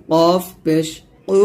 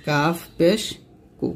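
First: Heavy back q in কফ; heavy Arabic q on কু; thick qaf. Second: Light k in কাফ; light Arabic k on কু; thin kaf. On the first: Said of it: "এই কফটা কিন্তু মোটা করে". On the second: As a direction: say কু thin, with an ordinary k. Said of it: "কাফটা কিন্তু পাতলা করে". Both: Shown as a demonstration.

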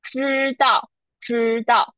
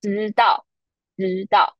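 First: 知道 with a strong curled zh; 知道 tongue curled back, Beijing style; Standard retroflex. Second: 知道 with flat, softened zh; 知道 said close to zidao; Taiwanese soft zh. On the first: Teacher repeating the Standard Chinese first word. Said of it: "in Standard Chinese, it's". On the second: Teacher repeating the Taiwanese first word. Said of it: "In Taiwanese Mandarin". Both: Shown as a demonstration.

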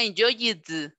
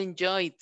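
First: "enjoyed" stretched into en-JOY-id; wrong ID ending. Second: Said in the usual way. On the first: Shown as a demonstration. Teacher showing the third column, "enjoyed" ending in a separate id. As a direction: sound out an added "id" syllable in "enjoyed". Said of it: "tiene que sonar I D". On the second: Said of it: "dice enjoyed".

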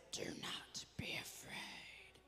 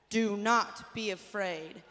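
First: Slow, husky whisper of a caped hero; Batman voice. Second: Loud, slow, firm model line. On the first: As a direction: whisper it like a dark superhero. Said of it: "Say it in your Batman voice". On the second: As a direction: say it boldly for the kids to echo. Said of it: "Say that". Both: Shown as a demonstration.

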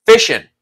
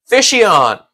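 First: "Fishin'" short and quick, ending in a light -in; corrected pronunciation. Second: "Fishion" drawn out, high then falling; mistaken pronunciation. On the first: Streamer correcting a name they misread, short "Fishin'". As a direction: cut "Fishin'" down to two short syllables. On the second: Streamer reading out a name, mispronounced "Fishion". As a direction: stretch "Fishion" out to a longer ending. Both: Shown as a demonstration. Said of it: "I always say that one wrong".

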